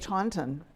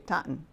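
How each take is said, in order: First: It uses the outsider's pronunciation of the name. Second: It uses the local residents' pronunciation of the name. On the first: The speaker was not born or raised there. "not having been born or raised in the community in which I live, ... I say Taunton" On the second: The speaker was born and raised there. "If you are born and raised in, you say Taunton"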